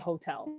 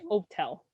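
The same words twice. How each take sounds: First: The word begins with an audible h sound. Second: The word begins with no h sound. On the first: "You don't say hotel" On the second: "You just forget that it exists"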